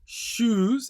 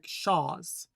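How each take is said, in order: First: The vowel is a plain 'oo' sound. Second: The vowel is an open 'ah'-like sound. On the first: "it doesn't sound like shoes" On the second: "it sounds like shaz"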